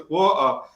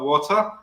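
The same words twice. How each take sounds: First: "water" with a glottal stop for the T; dropped T. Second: Said in the usual way. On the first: Shown as a demonstration. Teacher demonstrating their old pronunciation, "water" with no T. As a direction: say "water" as wa'er, T swallowed. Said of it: "I did say it like that". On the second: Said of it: "British people can't say a bottle of water".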